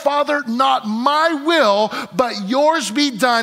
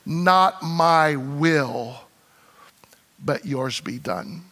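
First: Higher, louder, slow and resolved; Jesus yielding to the Father, resolute and slow; firm resolve. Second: Lower, softer, very slow prayer; Jesus praying his surrender, hushed and slow; quiet surrender. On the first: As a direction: declare it with full conviction. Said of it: "the very moment he said these words". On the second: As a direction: let it fall to a hushed yield. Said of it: "he was resolved over here". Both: Acted.

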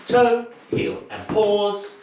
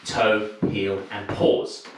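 First: Bright dance-call cue with a pause; high called count. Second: Said in the usual way. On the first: Shown as a demonstration. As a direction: sing out "Toe, heel", then stop. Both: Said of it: "So there will be a pause after you step across".

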